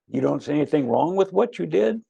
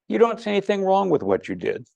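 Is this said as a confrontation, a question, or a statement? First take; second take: question; statement. First: It is said as a questioning, rising sentence. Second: It is said as a plain, calm statement. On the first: The listener is asked to confirm their view. "It's a question" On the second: The listener's view is simply reflected back. "That's number one"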